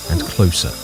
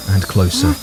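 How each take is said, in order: Both takes have the same delivery.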